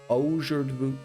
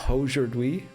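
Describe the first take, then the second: The two takes are said the same way.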